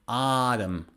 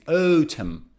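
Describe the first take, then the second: First: It is said with an American accent. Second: It is said with a British accent. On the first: "American pronunciation is autumn" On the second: "But British pronunciation is autumn"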